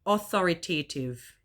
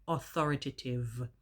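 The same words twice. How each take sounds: First: Put-on old wrong way: "Authoritative" with a long AY sound, aw-THOR-ih-tay-tiv; stressing "Authoritative" the mistaken way, -tay-tiv; wrong pronunciation. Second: "Authoritative" with a weak schwa, aw-THOR-ih-tuh-tiv; correct pronunciation. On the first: Vlogger showing the word she always mispronounced, old wrong way. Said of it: "pronouncing them incorrectly". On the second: Vlogger demonstrating the corrected word for viewers, careful pronunciation. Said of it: "It is not authoritative". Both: Shown as a demonstration.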